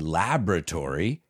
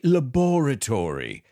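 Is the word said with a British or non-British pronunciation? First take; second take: non-British; British. First: It is said with a non-British pronunciation. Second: It is said with a British pronunciation. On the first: "I say laboratory" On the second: "they say laboratory"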